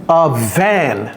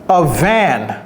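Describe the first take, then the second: The two takes are said the same way.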